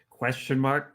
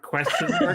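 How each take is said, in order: First: Said in the usual way. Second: High laughing squeak. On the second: Shown as a demonstration. Reading out notes, then joking.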